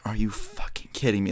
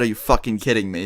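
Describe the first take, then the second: First: Stunned, voiceless whisper; whispered disbelief. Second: Said in the usual way. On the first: Retold or imitated. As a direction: whisper it under your breath in disbelief. Retold disbelief after being painted.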